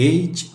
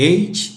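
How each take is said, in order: The two takes are said the same way.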